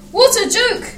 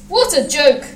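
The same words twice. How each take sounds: First: Very high, gleeful mocking exclamation; chortling. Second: Mildly amused exclamation, near usual pitch; chortling. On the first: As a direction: crow it with delight, pitch way up. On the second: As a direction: exclaim it with restrained mirth. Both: A narrator's reading. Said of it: "he chortled".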